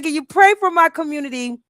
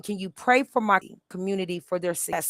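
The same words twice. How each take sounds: First: Higher and louder, pressing the word pray; louder, higher earnest request; earnest plea. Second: Said in the usual way. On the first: Retold or imitated. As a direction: insist on it, really asking. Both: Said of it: "But real, I said".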